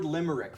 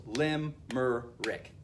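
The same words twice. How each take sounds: First: Said in the usual way. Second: "lim-mer-rick" slowly split into three beats; syllable by syllable. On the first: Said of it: "goes lim-mer-rick". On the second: Shown as a demonstration. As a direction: pause between each part of "lim-mer-rick". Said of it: "three syllables".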